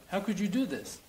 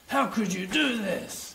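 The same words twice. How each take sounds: First: It sounds like a genuine, curious question. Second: It sounds like an angry accusation.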